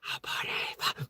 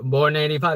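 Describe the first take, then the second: First: It is said softly. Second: It is said loudly.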